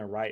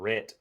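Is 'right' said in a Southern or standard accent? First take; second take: standard; Southern. First: The vowel is a standard long i. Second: The vowel is a short Southern e. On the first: "instead of saying right" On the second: "I heard people saying ... ret"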